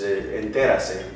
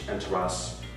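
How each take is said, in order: First: The word is said with Spanish pronunciation. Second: The word is said with English pronunciation. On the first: "Spanish is enterase" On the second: "you could pronounce it like in English"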